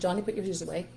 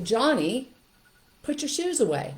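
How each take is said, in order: First: It is said calmly and quietly. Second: It is said with a raised voice.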